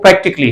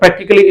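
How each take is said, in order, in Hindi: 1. आख़िरी अक्षर से पहले वाला स्वर साइलेंट होता है। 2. आख़िरी अक्षर से पहले वाला स्वर बोला जाता है। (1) "इसका जो सही प्रोनाउंसिएशन है" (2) "इज द रॉन्ग प्रोनाउंसिएशन"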